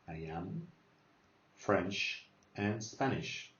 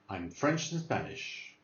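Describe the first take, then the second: First: It is said slowly, with words separated. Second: It is said at normal speed, contracted.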